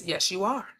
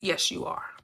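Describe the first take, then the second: First: A hushed inner voice saying yes; reply gently and low as consciousness; quietly affirming, barely above a murmur; soft quiet answer. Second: Breathy whisper, much softer and lower; a secret whispered yes from inside; whispered affirmation. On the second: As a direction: whisper it like the subconscious agreeing. Voicing the subconscious answering. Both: Pretend.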